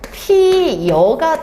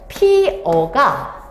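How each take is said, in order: First: A y-glide is added before the second vowel. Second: The second syllable is a plain vowel without glide. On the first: "반모음 첨가" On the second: "그냥 피어라고 발음하면 문제가 없어"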